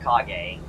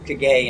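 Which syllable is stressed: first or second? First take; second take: first; second. First: The stress is on the first syllable. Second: The stress is on the second syllable. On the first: The speaker calls it right. "instead of" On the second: The speaker calls it wrong. "they emphasize that second syllable"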